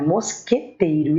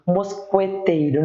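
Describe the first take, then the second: First: "mosqueteiro" with a silent U, mos-ke-teiro; correct mosqueteiro. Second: "mosqueteiro" with the U sounded, mos-kwe-teiro; wrong mosqueteiro. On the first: Teacher gives the class the correct form, U silent. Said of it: "não, é mosqueteiro". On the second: Teacher shows the class the wrong way to say it, sounding the U. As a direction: say "mosqueteiro" wrongly, voicing the U after the Q. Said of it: "eu não falo". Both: Shown as a demonstration.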